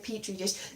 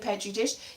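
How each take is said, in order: First: It is said with an American pronunciation. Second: It is said with a British pronunciation. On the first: "If you're an American, you say petri dish" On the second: "British people do say petri dish"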